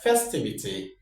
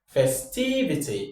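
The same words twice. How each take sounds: First: The stress is not on the second syllable. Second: The stress is on the second syllable. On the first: The speaker calls it wrong. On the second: The speaker calls it right. "So our stress falls on T"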